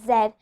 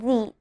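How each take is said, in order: First: The letter is said the British way. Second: The letter is said the American way. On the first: The speaker calls it wrong. "Z is pronounced in the British accent" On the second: The speaker calls it right. "you should always pronounce it as Z"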